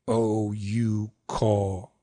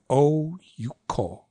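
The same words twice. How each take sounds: First: "Oh, you, ko" drawn out low and even; "Oh, you, ko" as three long syllables; all long. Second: "Oh, you, ko" as long, short, long; short middle syllable. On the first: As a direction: stretch each of Oh, you, ko equally. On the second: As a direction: lean on Oh, pass quickly over you. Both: Shown as a demonstration. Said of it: "Which sounds better to you?".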